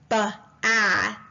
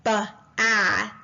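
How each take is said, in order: First: The b is followed by a separate 'uh' sound. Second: The same.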